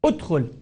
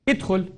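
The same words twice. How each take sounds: First: ادخل said udkhul, opening u; right take: ادخل starting with u; correct hamza with u. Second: ادخل said idkhul, opening i; wrong take: ادخل with opening i sound; wrong hamza with i. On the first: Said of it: "نقول أوه". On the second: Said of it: "لكن خطأ ادخل". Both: Shown as a demonstration.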